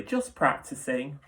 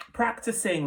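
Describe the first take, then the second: First: Slow, casual, drawn-out repeat; airy, slower. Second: Light, high and breezy; airy. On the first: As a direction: shrug it off lazily. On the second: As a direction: toss it off airily. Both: A narrator's reading. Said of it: "the wolf said airily".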